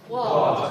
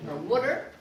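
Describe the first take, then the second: First: "Water" louder, higher, stressed on WA; teacher models "Water"; model word. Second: "water" with an oo-like first vowel; mock wrong "water"; alternative vowel. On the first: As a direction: say "Water" with a clear WA. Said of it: "Say water". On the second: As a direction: try "water" as "wutter". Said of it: "Did we say water?". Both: Shown as a demonstration.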